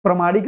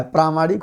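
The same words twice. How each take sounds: First: प्रामाणिक said as pramanik with a short a in the first syllable; teacher showing the wrong form of प्रामाणिक. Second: प्रामाणिक with a long aa in प्रा; teacher giving the correct form of प्रामाणिक. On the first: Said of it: "प्रामाणिक नहीं होता है". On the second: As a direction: stretch the first vowel of प्रामाणिक into a long aa. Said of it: "प्रामाणिक होता है". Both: Shown as a demonstration.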